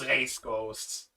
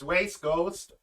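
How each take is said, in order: First: The R at the start is a German-style R. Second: The R at the start sounds like a W. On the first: "or I go full German" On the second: "Either it becomes a W"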